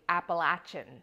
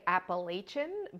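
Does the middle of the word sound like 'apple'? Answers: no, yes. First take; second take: yes; no. First: The middle syllable sounds like 'apple'. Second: The middle syllable does not sound like 'apple'. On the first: This is the form the speaker now believes is correct. The speaker calls it right. "the pronunciation is actually Appalachian, like I'm going to throw an apple at you" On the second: This is the form used while growing up. The speaker calls it wrong. "I grew up saying Appalachian"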